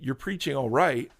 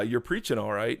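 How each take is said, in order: First: It sounds lukewarm, calling the preaching merely average. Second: It sounds scolding, telling him to stop.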